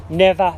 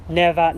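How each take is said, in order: Both takes have the same delivery.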